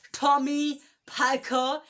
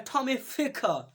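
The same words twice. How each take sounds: First: "Tommy Picker" with a firm, aspirated P, rising at the end; "Tommy Picker" with P, not F. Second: "Tommy Ficker", F variant, level voice. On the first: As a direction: say "Picker" with a clear P sound, slightly louder. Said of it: "Tommy Picker is correct pronounce". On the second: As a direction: swap the P for an F: "Ficker". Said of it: "I don't know which one is correct". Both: Shown as a demonstration.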